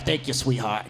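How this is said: It is said in a put-on old-man voice. It mocks a stranger calling people sweetheart.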